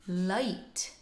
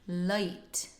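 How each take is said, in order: Both takes have the same delivery.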